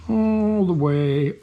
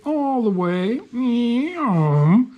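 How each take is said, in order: First: Said in the usual way. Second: High playful meow; playful sing-song. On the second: Real, not acted. Playful sing-song cat cry.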